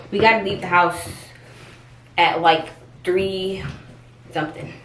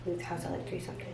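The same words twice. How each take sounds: First: Said in the usual way. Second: Much softer muttered repeat. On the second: Real, not acted. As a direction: say it again under your breath. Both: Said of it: "repeats it softly".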